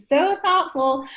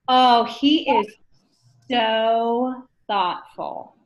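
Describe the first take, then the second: First: Mock gushing. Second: Slow, dreamy so thoughtful; drawn-out lovestruck gush, lightly done; swooning admirer. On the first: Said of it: "every situation". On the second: Retold or imitated. New dater gushing over a partner, slow and dreamy.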